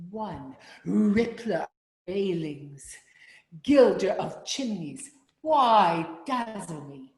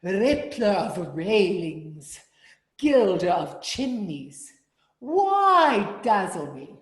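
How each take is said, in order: First: Louder with hard consonants on rippler; strong rippler. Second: Louder, slow, consonants punched; strong consonants. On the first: Choir leader saying the line with strong consonants. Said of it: "we'll make a strong rippler". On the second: Choir leader demonstrating strong consonants to altos. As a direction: spit out the consonants of rippler. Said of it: "give me". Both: Shown as a demonstration.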